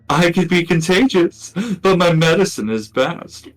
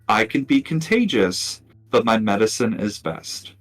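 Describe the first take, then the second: First: It is said in a put-on character voice. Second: It is said in the speaker's ordinary voice.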